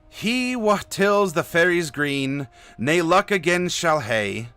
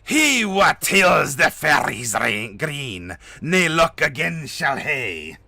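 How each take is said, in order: First: It has a light, toned-down Scottish accent. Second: It has a heavy, exaggerated Scottish accent. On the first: "pardon me for my my not my eh Scottish accent" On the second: "I didn't want to go like full"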